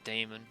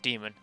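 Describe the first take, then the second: First: The first vowel sounds like 'ay'. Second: The first vowel sounds like 'ee'. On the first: It is a playful, goofy pronunciation. "I like pronouncing the A" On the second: It is the standard pronunciation. "I know it's demon"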